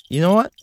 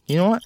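First: Mock angry. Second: Mock angry, softer repeat. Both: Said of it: "That was an argument".

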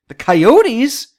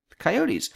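First: Loud, rising disbelief; can't believe it's them; disbelieving. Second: Quiet resigned acceptance. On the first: Repeats in disbelief. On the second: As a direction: settle for the fact. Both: Real, not acted.

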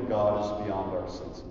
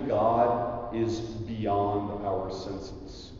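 First: Said in the usual way. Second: Slow, soft and weighty, stress on God; slow emphatic. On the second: Acted. Preacher to students, slow and weighty. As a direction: lay each word down slowly, God stressed. Preacher slows key line.

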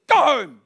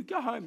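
First: Loud, high, sudden "go home!"; firm command. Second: Soft, slightly raised "go home"; half-hearted command. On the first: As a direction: order the dog off like you mean it. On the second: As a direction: send the dog home without any firmness. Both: Retold or imitated. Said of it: "you've gotta be firm".

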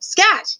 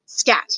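First: High-pitched shouted dismissal. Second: Said in the usual way. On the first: A narrator's reading. King stomping his foot at the mouse, shouting. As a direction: shoo it away in a raised pitch. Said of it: "he shouted". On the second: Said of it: "he said".

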